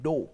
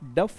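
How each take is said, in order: First: The word ends in a long o sound. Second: The word ends in an f sound. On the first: The speaker calls it right. "English language में बोलते हैं डो" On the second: The speaker calls it wrong. "इसे आप डफ नहीं बोल सकते हो"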